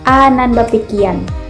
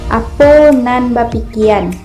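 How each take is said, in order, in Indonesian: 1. Kata pertama disingkat menjadi satu suku kata. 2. Kata pertama diucapkan utuh, dua suku kata. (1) "apo disingkat menjadi a" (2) "Apa dalam bahasa Minang dilafalkan sebagai apo"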